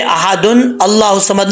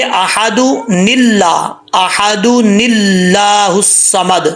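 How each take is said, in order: First: Said in the usual way. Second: احد نلا slowly with a small nun before للہ; slow joined recitation; tajweed joining. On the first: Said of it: "نہیں پڑھیں گے". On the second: Shown as a demonstration. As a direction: chant احد نلا الصمد, linking with نون. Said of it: "کیسے پڑھیں گے؟".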